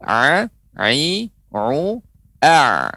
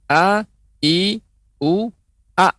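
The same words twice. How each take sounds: First: "a, i, u, a" squeezed from the throat as ain; bunyi ain. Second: "a, i, u, a" as clean alif vowels, rising in pitch; bunyi alif. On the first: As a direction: press each of "a, i, u, a" out of the throat. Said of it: "ya, huruf ain pengucapannya". ("a, i, u, a" dengan ain dari tenggorokan) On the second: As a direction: sound "a, i, u, a" with a plain glottal onset. ("a, i, u, a" seperti alif, tanpa tekanan tenggorokan) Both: Shown as a demonstration.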